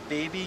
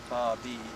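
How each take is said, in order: First: The first vowel is a long 'ay' sound. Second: The first vowel is an open 'ah' sound. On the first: The speaker calls it wrong. "it says like baby. It's not pronounced that way" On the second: The speaker calls it right. "It's actually pronounced Bobby"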